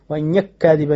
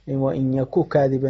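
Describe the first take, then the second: First: The two k sounds merge into one. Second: The two k sounds are pronounced separately. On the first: "فيجوز له الإدغام فيقرأها" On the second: "ويجوز له الإظهار"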